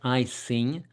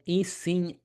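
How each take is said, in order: First: The first vowel sounds like "eye". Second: The first vowel sounds like "ee". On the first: The speaker calls it wrong. "It's not iSing" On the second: The speaker calls it right. "majority of people pronounce it eSing"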